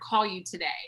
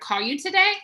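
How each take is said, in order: First: The voice falls at the end. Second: The voice rises at the end. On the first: The speaker is confident. The speaker calls it right. "So that exudes confidence" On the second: The speaker is unsure. The speaker calls it wrong. "That sounds unsure"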